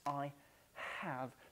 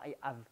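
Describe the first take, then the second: First: The h at the start of 'have' is breathed. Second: The h at the start of 'have' is silent. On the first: The speaker calls it right. "N'oublie pas ton H aspiré là" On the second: The speaker calls it wrong. "C'est pas I have"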